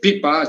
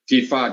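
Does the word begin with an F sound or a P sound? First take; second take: P sound; F sound. First: The word is said with P sounds. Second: The word is said with F sounds.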